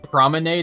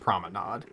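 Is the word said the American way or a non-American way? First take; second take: American; non-American. First: The word is said with an American pronunciation. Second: The word is said with a non-American pronunciation. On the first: The speaker calls it wrong. "the dumb American way of saying it" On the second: The speaker calls it right. "probably actually pronounced promenade"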